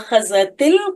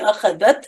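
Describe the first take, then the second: First: The word ends with a linking 'i' vowel. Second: The word ends on a bare 't' sound. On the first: The word is joined to the next word. "जेर लगा के हम पढ़ते हैं" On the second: The word is said on its own. "अलग अलग आपसे कहा जाएगा"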